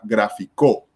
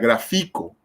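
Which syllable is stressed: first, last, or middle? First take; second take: last; middle. First: The stress is on the last syllable. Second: The stress is on the middle syllable. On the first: It is the past tense of the verb. "Si fuera la última sílaba" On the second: It is the present tense of the verb. "si la fuerza tónica en este caso fuera en la, en la penúltima"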